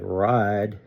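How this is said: The vowel is stretched and glides into two.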